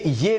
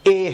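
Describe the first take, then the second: First: The letter is said with a soft sound. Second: The letter is said with a sharp sound. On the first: The speaker calls it wrong. "ये ये नहीं है" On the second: The speaker calls it right. "एक sharp sound निकलेगा"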